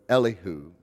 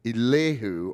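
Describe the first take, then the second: First: Elihu said EH-lih-hoo, stress on EH. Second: Elihu said ee-LEH-hoo, stress on LEH. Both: Shown as a demonstration. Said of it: "depending on how you pronounce it".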